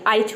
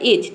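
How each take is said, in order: First: The first vowel sounds like 'eye'. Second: The first vowel sounds like 'ee'. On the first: The speaker calls it wrong. "आई को आई pronounce किया" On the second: The speaker calls it right. "आई को ई pronounce किया"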